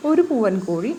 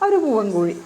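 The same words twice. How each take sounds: The two takes are said the same way.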